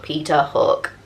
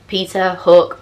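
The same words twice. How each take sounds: First: Mock sing-song, falling away; second of the back and forth. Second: Mock sing-song back and forth; first of the back and forth. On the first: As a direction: lower and softer, swinging back. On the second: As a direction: toss the names out like one side of a swing. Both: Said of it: "It was very samey, to and fro".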